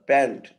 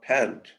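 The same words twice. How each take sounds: First: The p has no puff of breath. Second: The p has a puff of breath. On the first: "pant and not" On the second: "and not"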